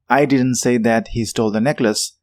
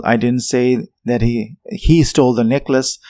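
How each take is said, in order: First: "I" hit hardest, the rest of the sentence kept level; stress on I. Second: "he" lifted and pushed out in the middle of the sentence; stress on he. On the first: Teacher showing that someone else said it, stress on "I". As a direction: lean on the opening word "I". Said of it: "That's focusing on the subject or I of the sentence". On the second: Teacher showing it was someone else who stole, stress on "he". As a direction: land the weight on "he". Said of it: "I could mean that I didn't say he stole the necklace". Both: Shown as a demonstration.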